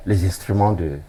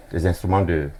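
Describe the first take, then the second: No difference in how they are said.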